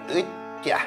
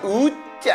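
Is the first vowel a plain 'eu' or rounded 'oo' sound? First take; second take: eu; oo. First: The first vowel is a plain unrounded 'eu'. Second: The first vowel is rounded, close to 'oo'. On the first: The speaker calls it wrong. "으자 말고" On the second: The speaker calls it right. "약간 우 발음으로 하는 게 더 매력이 있다고"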